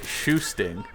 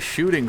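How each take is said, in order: First: The word is said with an added s sound. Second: The word is said with a plain sh sound. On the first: "he would pronounce it shoosting" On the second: "he would say shooting funny"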